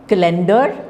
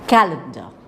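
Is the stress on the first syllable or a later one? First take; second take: later; first. First: The stress falls on a later syllable. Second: The stress falls on the first syllable. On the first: The speaker calls it wrong. "you are again stressing the wrong syllables" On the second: The speaker calls it right. "So it is calendar"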